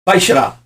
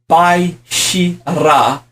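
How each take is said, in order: First: The syllables are run together quickly. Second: Each syllable is said separately and slowly. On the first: "you say fast" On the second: "you write Bai Shi Ra"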